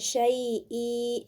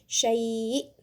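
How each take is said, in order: First: The word ends with a short i vowel. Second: The word ends on the glottal stop consonant. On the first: The speaker calls it wrong. "bukan syai'i" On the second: The speaker calls it right. "tapi ini syai'"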